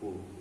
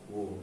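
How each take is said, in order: First: The word starts with an H sound. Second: The word starts with a W sound. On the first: The speaker calls it right. "tapi who" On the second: The speaker calls it wrong. "bukan who"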